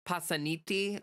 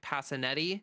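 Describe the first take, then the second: First: The name is said with an Italian pronunciation. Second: The name is said with an American pronunciation. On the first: "if it was pronounced in in proper Italian" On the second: "Pennsylvania pronunciation"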